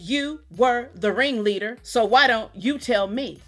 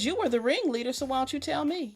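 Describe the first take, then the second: First: The line is spoken slowly and deliberately. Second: The line is spoken at a normal pace.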